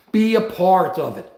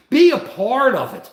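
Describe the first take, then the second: First: Said in the usual way. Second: Be a part of it, pushed harder and louder; louder insistence. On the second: Shown as a demonstration. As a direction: press the words Be a part of it home.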